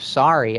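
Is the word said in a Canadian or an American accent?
American. It is said in an American accent.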